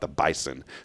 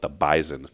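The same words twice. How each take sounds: First: The middle consonant is an s sound. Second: The middle consonant is a z sound. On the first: This is not how the group said it. "not the Bison" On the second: This is how the group said it. "We called it the Bison"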